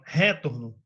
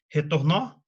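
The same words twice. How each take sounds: First: "retorno" wrongly stressed as RÉ-torno; stress on first syllable. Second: "Retornou" said re-tor-NÓ, rising at the end; stress on last syllable. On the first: Teacher offers another option, stress on RE of "retorno". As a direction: hit RE in "retorno", let the rest fall. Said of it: "Ou você fala". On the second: Teacher offers a wrong option, stress on end of "Retornou". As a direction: punch the final NÓ of "Retornou" as a question. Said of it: "Ou você fala retorno". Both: Shown as a demonstration.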